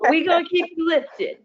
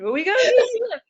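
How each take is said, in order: First: Put-on an Andre-style Alabama accent. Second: Put-on high, fast Alabama accent; a squeaky Alabama accent. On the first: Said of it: "I wish I could say it in the Alabama accent that Andre has". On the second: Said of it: "that's my best impression".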